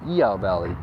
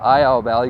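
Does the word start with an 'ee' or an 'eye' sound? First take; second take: ee; eye. First: The first vowel sounds like 'ee'. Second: The first vowel sounds like 'eye'. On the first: The speaker calls it right. "go to E-Ow Valley" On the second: The speaker calls it wrong. "Don't go to I-Ow Valley"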